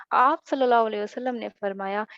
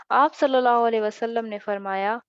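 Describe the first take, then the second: Both takes have the same delivery.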